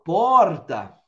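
It is said in a São Paulo city accent. "Em São Paulo, capital"

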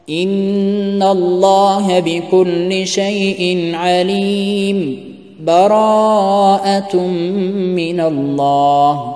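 There is a brief pause between the phrases.

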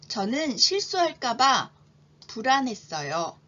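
The sentence is read slowly with a pause inside. "천천히 두 번 제가 먼저 읽겠습니다"

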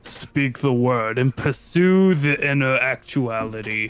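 It is said in an imitation of Gage's voice.

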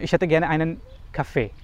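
It is spoken quickly with a native-like German accent. The speaker calls it right. "अब मैंने ये तेज़ी में बोला"

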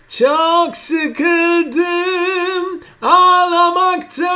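The voice is bright and slightly nasal.

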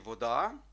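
It is pronounced the Ukrainian way. "Ми кажемо в українській мові зазвичай «вода»"

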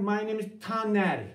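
The sentence is said with rising and falling pitch. The speaker calls it right. "My name is Taner dersem de duyuluyor"

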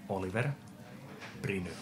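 The name is said with Finnish pronunciation.

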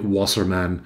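The name is pronounced with English sounds. "but probably Wasserman in English or in American English"

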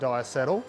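The word is said with an American pronunciation. "If you're an American you'll pronounce it diacetyl"

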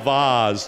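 It is said in a refined, upper-class accent. This is how a mother wants her child to talk. "the accent your mother wants you to use"

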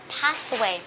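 It is said in an American accent. "anh Mỹ sẽ đọc là pathway"

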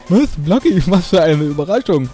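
It is said in a put-on, silly character voice. The speaker calls it right.

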